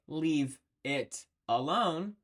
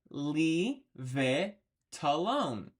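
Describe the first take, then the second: First: Each word is said separately with clear breaks. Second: Consonants run into the following vowels smoothly. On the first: The speaker calls it wrong. "We don't normally say" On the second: The speaker calls it right. "We say"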